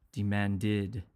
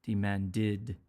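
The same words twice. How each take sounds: First: "demanded" with an extra syllable, de-man-did; teacher modelling "demanded". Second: "Demanded" again with the id ending; teacher repeating "Demanded"; repeated ed as id. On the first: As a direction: stress the added "did" syllable. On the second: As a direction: echo "Demanded" ending in -did. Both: Shown as a demonstration. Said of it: "the past tense will have an".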